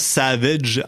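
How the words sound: The name is said with Slovenian pronunciation. "il se prononce Savage en slovénien"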